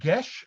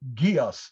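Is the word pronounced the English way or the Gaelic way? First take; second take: Gaelic; English. First: The word gets its Gaelic pronunciation. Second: The word gets an anglicized reading pronunciation.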